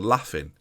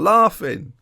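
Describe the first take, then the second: First: It is said with a northern English accent. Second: It is said with a southern English accent.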